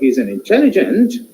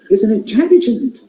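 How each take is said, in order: First: It sounds doubtful, like partial agreement. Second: It sounds surprised, with modulated voice.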